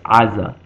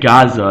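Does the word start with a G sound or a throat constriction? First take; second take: throat constriction; G sound. First: The word starts with a constricted throat vowel. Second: The word starts with a hard G sound. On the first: This is the original Hebrew form. The speaker calls it right. "it's Aza, because of the ayin" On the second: This is the usual English form. The speaker calls it wrong. "we say Gaza in English"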